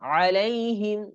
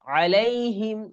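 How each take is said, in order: Both takes have the same delivery.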